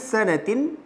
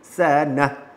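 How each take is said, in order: First: The word ends with a t and -in. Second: The word ends on a stopped h sound. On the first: The speaker calls it wrong. "Jangan sanatin" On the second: The speaker calls it right. "tapi baca dengan sanah"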